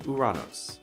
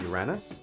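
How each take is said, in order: First: It sounds Greek and ends in 'os'. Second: It has a flat A and ends in 'us'. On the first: "something more like the Greek name Uranos" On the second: "pronounced with a flat A to sound like Uranus"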